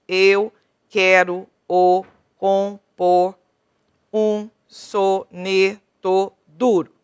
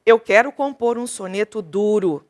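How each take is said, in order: First: Slow, stretched syllable-by-syllable scansion; teacher scanning the verse slowly for students. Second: Measured poem recitation; recited, rhythmic verse reading. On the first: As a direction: draw out each poetic syllable to count it. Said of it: "vou contar até a última sílaba tônica". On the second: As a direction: read it as a sonnet line. Reads the sonnet aloud. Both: Shown as a demonstration.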